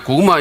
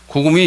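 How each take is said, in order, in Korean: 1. 마지막 음절은 'ah' 모음으로 끝납니다. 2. 마지막 음절은 'ee' 모음으로 끝납니다. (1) "자기가 고구마 이래야 되는데" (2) "고구미 이렇게 대답한 거예요. 왜냐면 아자를 발음을 못하니까"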